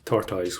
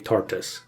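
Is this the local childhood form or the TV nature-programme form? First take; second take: local form; TV form. First: It is said in the speaker's local way. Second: It is said in the nature-programme way. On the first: This is how people said it where the speaker grew up. "everyone would have said tortoise where I'm from" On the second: This is how narrators of TV nature programmes say it. "they will say tortoise"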